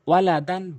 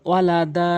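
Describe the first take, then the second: First: The word ends with an n sound. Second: The word ends on a long a without n. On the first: The word is read as spelled, without stopping. "বানান করলে ওয়ালা দান" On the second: The reader stops at this word. "ওয়াকফ যখন করি তখন এই দালের দুই জবরে এক জবর বাদ দিতে হয়"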